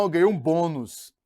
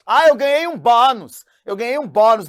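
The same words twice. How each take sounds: First: "bônus" with a closed nasal o; correct bônus. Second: "bônus" said as "bânus", open nasal a; teacher mocks "bônus" as "bânus" in a louder, higher put-on voice; wrong bânus. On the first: Teacher to students, giving the correct "bônus". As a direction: set it right: "bônus" with a closed o. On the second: Teacher to students, mocking the wrong "bânus" pronunciation. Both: Shown as a demonstration. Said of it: "bônus, não é bônus".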